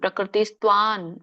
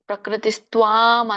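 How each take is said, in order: First: The final nasal is pronounced as an n sound. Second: The final nasal is pronounced as an m sound. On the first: "ನ ಅಂತ ಹೇಳ್ಬೇಕು" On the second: "ಸಾಮಾನ್ಯವಾಗಿ ಎಲ್ಲರೂ ಅನುಸ್ವಾರ ನೀವು ಹೇಳ್ತೀರಾ"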